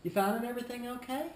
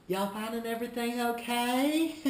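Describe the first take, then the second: First: High, quick smiling check-in. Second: High, loud cheery question into a laugh. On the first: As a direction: ask with a smile, rising at the end. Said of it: "With a smile". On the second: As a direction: overdo the friendly check-in, end laughing. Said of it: "Laughing's good". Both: Shown as a demonstration.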